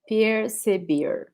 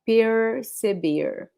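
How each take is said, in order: First: The R sounds like an English R. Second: The R sounds like an English R.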